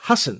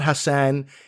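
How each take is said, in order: First: It starts with 'huh' and ends nearly vowelless. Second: The second syllable has a full, clear vowel. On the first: The speaker calls it right. "almost like H U H, like huh, and then S N with no vowels there" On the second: The speaker calls it wrong. "the last name is not Hassan"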